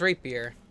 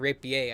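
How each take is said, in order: First: The word has an ordinary English pronunciation. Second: The word has a French-style pronunciation.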